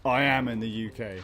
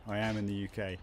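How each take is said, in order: First: "am" punched loud and falling; stress on am. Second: Said in the usual way. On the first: Shown as a demonstration. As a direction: lean hard on "am", louder.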